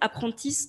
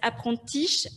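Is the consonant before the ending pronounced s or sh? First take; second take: s; sh. First: The consonant before the ending is s. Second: The consonant before the ending is sh. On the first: "plus souvent, c'est apprentice, deux S E" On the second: "c'est parfois c'est apprentiche, alors c'est H"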